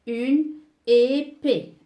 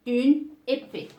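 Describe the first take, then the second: First: Une épée drawn out slowly, both é's clear; slow model word. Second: Said in the usual way. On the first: Shown as a demonstration. Teacher showing the two accents of épée. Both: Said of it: "Elle prend deux accents aigus".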